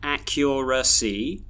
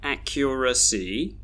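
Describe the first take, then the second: First: The unstressed syllables have full vowels. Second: The unstressed syllables have full vowels.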